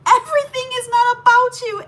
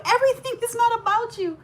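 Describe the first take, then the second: First: High, loud, accusing mock yell; imitating angry sister-in-law. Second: High accusing repeat, a little less loud; imitating a repeated scolding. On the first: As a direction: throw it at her like a scolding sister-in-law. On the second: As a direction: hammer the same accusation again, less loudly. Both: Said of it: "she starts going in on me".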